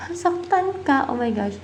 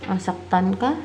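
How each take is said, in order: First: High-pitched startled reaction; astonished, much higher than usual; shocked realisation. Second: Rising question on "ka"; "ka" turned up at the end. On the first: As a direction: react in real surprise to bad news, voice jumping up. Shocked at what the cards answer. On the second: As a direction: ask it tentatively, pitch lifting on "ka". Asks the cards before reacting. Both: Real, not acted.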